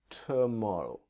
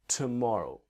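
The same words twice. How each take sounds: No difference in how they are said.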